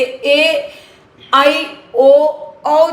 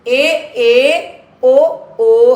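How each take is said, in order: First: आई and औ as gliding "ai" and "au"; South Indian diphthongs in आई and औ; South Indian pronunciation. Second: ए, ए, ओ, ओ as unglided e and o vowels; Hindi pronunciation. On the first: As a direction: demonstrate ए, आई, ओ, औ as four distinct vowels. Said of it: "हमारे south Indians के बच्चे". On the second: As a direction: demonstrate Hindi ए and ओ, without "ai" or "au" glides. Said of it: "पर हिंदी में इसका उच्चारण". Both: Shown as a demonstration.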